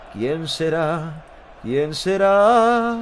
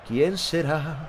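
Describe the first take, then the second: First: Lento, arrastrando cada sílaba; voz misteriosa de broma. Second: Said in the usual way. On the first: Pretend. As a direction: alarga la pregunta con misterio burlón. (voz de misterio exagerada y muy lenta) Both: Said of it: "repite la frase cambiando la voz".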